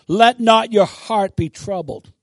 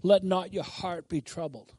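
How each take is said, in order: First: Loud, slow and forceful; commanding declaration. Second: Passive reading. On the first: Shown as a demonstration. Preacher shows how God wants it said, commandingly. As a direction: declare it like an order. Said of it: "No, God wants you to say". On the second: Acted. Preacher mimics someone casually recalling the word, passively. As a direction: take it as just a nice saying. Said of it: "Oh, that's nice".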